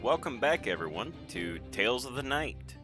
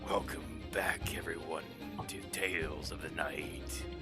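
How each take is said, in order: First: The voice sounds bright and happy. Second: The voice sounds dark and eerie. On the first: The speaker calls it wrong. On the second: The speaker calls it right.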